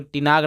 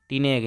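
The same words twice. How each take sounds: First: "टिनाग" with long aa in the last syllable; faulty "टिनाग", aa instead of e; wrong pronunciation. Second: "टिनेग" with long e in the last syllable; correct pronunciation. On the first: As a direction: show the misreading "टिनाग", ending in naag. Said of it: "कोई टिनाग नहीं पढ़ेगा". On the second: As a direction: give the right "टिनेग", ending in neg. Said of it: "क्या पढ़ेंगे?". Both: Shown as a demonstration.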